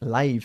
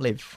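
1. No se pronuncia como el verbo 'to live'. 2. Se pronuncia como el verbo 'to live'. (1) "se pronuncia live cuando significa en directo" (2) "not live. Se escribe como el verbo to live"

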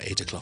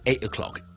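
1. T 有發音，並且連到下一個字。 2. 兩個字之間的 T 被省略了。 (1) "個T M 可以諗埋啦" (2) "倫敦有啲本地嘅人咧，就可能會有時會讀成"

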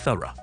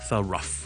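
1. 结尾是简单的 r 加元音。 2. 结尾听起来像 rough 这个词。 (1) "只係一個好簡單嘅r 啫" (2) "虽然我后面好似rugh 串到好似rough 咁呢，但係就唔係读thorough 嘅"

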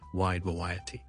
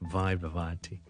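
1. 两个词都以 W 音开头。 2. 两个词都以 V 音开头。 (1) "都读成我哋广东话有嘅W sound 就变咗wide variety" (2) "读晒V sound 咧就变咗wide variety"

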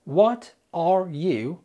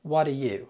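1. كل كلمة تُقال منفصلة وكاملة. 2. الكلمات تتداخل بسرعة وتُختصر.

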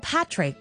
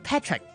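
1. 第一个元音的发音和'bat'中的那个一样。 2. 第一个元音的发音和'bet'中的那个一样。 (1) "男仔叫Patrick" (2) "大家就叫佢Patrick"

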